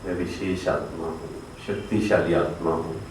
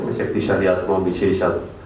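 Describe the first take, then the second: First: It is said slowly. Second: It is said fast.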